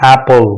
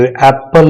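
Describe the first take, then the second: First: Said in the usual way. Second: एप्पल with a full vowel in the last syllable, ap-pal; wrong pronunciation. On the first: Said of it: "ये silent होगा". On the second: Shown as a demonstration. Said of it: "नहीं है".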